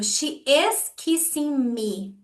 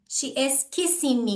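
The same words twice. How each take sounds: First: Slow model sentence. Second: Said in the usual way. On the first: Shown as a demonstration. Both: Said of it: "She is kissing me é uma afirmação direta".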